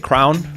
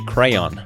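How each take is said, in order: First: It is said the Great Lakes way. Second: It is said the Western US way.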